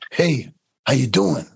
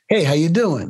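First: The greeting sounds tense, bitter and resentful. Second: The greeting sounds light, friendly and casual. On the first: The greeting is aimed at a friend who has betrayed the speaker. The speaker calls it right. "the tone's going to be different" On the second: The lines are simply recited without any backstory. The speaker calls it wrong. "you just memorize the lines"

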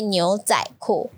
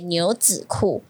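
First: The middle syllable is said as zai. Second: The middle syllable is said as zi. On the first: This is the form officially required the next year. "no, you should say 牛仔库" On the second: This is the form officially required this year. "this year you should pronounce 子"

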